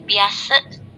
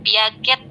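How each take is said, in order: First: The name is read in a different pronunciation. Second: The name is read the way it is spelled. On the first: The speaker calls it right. "tapi Piaget ya, hanya eh, spelling saja" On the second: The speaker calls it wrong. "bukan Piaget dibacanya"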